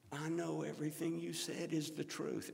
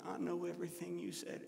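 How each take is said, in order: First: Said in the usual way. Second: Little whine. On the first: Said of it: "And that's just the way she sounded". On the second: Retold or imitated. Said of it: "Always had a little whine to her".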